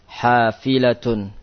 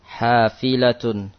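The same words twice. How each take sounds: Both takes have the same delivery.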